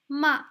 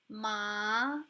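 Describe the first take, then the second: First: The pitch falls sharply downward. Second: The pitch rises upward. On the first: It means scold. "the falling tone sounds like this" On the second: It means numbness. "The rising tone"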